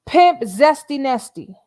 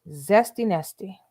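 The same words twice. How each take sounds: First: Loud, slow, higher hype-man call; hype name announcement. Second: Said in the usual way. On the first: Pretend. Streamer crowning Nesto with a new name, loud slow hype call. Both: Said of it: "That's Nesto's new name".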